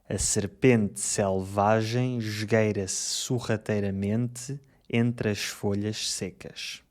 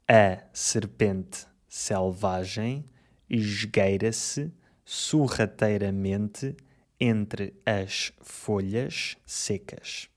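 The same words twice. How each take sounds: First: The sentence is spoken fast. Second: The sentence is spoken slowly. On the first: "Agora mais rápido" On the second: "Primeiro, devagar"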